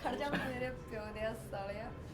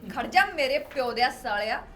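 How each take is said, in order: First: The line is spoken at a quieter, ordinary volume. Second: The line is spoken loudly, with raised volume.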